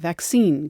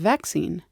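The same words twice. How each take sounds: First: The stress is on the second syllable. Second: The stress is on the first syllable. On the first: It keeps the foreign word's stress. "We let the foreign stress stay on newer borrowings like" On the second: It uses the English stress pattern. "In Britain, they say"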